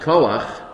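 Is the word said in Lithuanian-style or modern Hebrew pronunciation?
modern. The first vowel sounds like 'oh'. "the more common nowadays"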